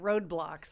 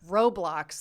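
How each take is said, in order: First: It is said with a 'd' sound: road-blocks. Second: It is said without a 'd' sound: ro-blocks. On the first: The speaker calls it wrong. "It's not roadblocks, like there's a roadblock in your way" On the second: The speaker calls it right. "like robots and blocks"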